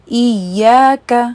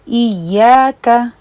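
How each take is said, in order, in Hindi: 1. y खिंची हुई और दोहरी है। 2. y खिंची हुई और दोहरी है।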